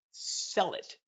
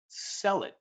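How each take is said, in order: First: "Sell it" whispered as a secret tip; "Sell it" whispered conspiratorially. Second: "sell it" as a calm firm command. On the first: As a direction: breathe "Sell it" like insider advice. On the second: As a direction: state "sell it" like a rule. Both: Shown as a demonstration. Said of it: "One more time, I'll say it".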